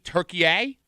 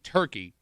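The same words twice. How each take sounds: First: The word has the Turkish local pronunciation. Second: The word has the usual English pronunciation. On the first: "that's how they pronounce it in Turkey" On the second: "They're not calling turkey turkey"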